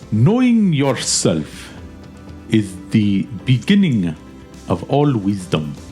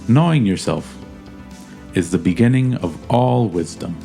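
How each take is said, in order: First: It is said in a put-on Russian accent. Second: It is said in the speaker's natural accent. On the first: "say it in a Russian accent" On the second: "now say it in your real voice"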